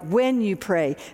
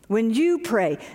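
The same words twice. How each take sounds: First: The stress is on the word 'when'. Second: The stress is on the word 'you'. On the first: Prayer is a non-negotiable. "I've usually emphasized the word "when,"" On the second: It is about you personally, never mind everybody else. "the word "you" stood out for me"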